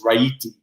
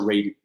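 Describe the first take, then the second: First: The name is said the Italian way. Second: The name is said the American way. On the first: This is the original form from the home country. "the Italian pronunciation is Raiti" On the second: This is the form adopted to fit in after emigrating. "they wanted to be more Americanized, and they changed it to Rady"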